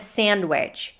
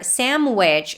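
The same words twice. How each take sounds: First: It uses the standard adult pronunciation. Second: It uses another silly childish mispronunciation. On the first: "instead of sandwich" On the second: "or sandwich"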